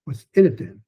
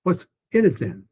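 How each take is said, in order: First: In pushed a bit higher, then lands; stress on in. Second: In falls and then trails off; stress on in. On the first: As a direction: land on the word in. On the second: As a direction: hit the word in. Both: Shown as a demonstration. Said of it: "the first time I said it".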